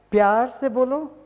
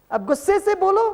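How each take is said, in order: First: प्यार से बोलो in a sweet, changed voice; loving tone. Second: Mock angry. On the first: Teacher demonstrating a loving tone. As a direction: show how loving speech sounds. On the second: Teacher demonstrating an angry tone. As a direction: act out speaking in anger, pitched way up. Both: Shown as a demonstration.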